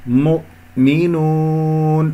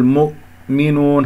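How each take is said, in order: First: Slow chanted مؤمنون with a separated glottal stop; clean still hamza. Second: Slow مؤمنون with lips staying rounded on ء; faulty dragged damma. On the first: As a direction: release the damma before the ء in مؤمنون. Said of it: "يجب أن تخلص". (تخليص الهمزة الساكنة في مؤمنون) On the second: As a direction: drag the u of م into the hamza in مؤمنون. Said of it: "لا تسحب ضمة الميم". (سحب الضمة إلى الهمزة في مؤمنون) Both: Shown as a demonstration.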